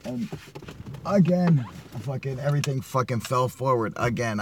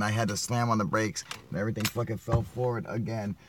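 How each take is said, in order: First: Exasperated outburst. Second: Said in the usual way. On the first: Real, not acted. Vlogger griping that his gear fell forward again, exasperated. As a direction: blurt it out, fed up.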